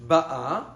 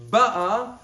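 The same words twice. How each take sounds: First: Ba'a, louder, stressed on the last syllable, ba-A; Ba'a stressed at the end to mean present tense. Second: Ba'a, louder, stressed on the first syllable, BA-a; Ba'a stressed at the front to mean past tense; stress on the start. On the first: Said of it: "presently coming". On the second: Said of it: "had already come". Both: Shown as a demonstration.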